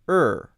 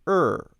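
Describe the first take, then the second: The two takes are said the same way.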